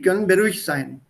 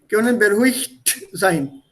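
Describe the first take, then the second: First: Said quickly, the final t fades almost to nothing. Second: Said slowly and loudly, the final t clearly heard. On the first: "when you don't hear the T when I speak it out at that speed" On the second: "I'll pronounce it loudly"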